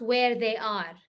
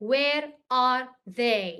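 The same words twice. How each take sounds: First: "where they are" run together, falling on "are"; wrong word-order example. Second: "Where are they" word by word, pausing after "Where"; correct question model. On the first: Teacher shows students what not to say, as a rejected example. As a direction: say "where they are" as one unbroken phrase, ending down. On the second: Teacher models asking about them, as a deliberate question. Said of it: "I say". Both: Shown as a demonstration.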